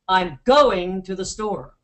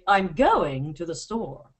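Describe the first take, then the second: First: An American voice stresses the word by loudness. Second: A British voice stresses the word by pitch. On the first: "American men, change their stress on words by volume. They'll say" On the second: "A British man will say, ... he's going to change the pitch"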